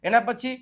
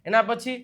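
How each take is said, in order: Both takes have the same delivery.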